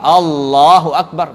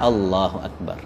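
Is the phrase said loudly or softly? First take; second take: loudly; softly. First: The phrase is said loudly, projected outward. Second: The phrase is said softly, barely audible. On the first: It is said for everyone to hear. The speaker calls it wrong. "seperti imam" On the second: Only the speaker himself hears it. The speaker calls it right. "Pelan-pelan aja"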